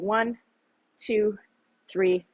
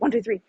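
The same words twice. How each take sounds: First: The count is said slowly and evenly. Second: The count is said quickly and rushed. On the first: The full three seconds are taken. The speaker calls it right. "make it a" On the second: The three seconds are cut short. The speaker calls it wrong. "Don't go"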